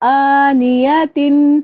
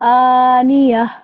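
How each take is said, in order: First: The word ends with a clear 'tin' sound. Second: The word ends with an 'h' sound instead. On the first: The reader continues without stopping. "सिर्फ़ यहाँ पे तिन को ज़ाहिर करना है" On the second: The reader stops on this word. "वक़्फ़ होगा इसका"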